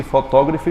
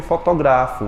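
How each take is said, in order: First: Fotógrafo stressed on TÓ, as fo-TÓ-gra-fo; "fotógrafo" as the noun, beat on open TÓ. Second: Fotografo stressed on GRA, as fo-to-GRA-fo; "fotografo" as the verb, beat on GRA. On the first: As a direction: hit the second syllable of "fotógrafo". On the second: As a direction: hit the third syllable of "fotografo". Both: Shown as a demonstration. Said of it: "A mesma coisa que".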